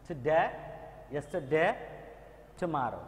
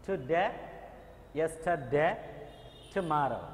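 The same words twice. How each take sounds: The two takes are said the same way.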